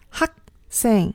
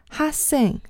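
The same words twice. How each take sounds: First: The first syllable ends with a short k sound. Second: The first syllable ends without a k sound. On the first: The speaker calls it right. "才是正确的发音" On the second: The speaker calls it wrong. "不要发成哈생"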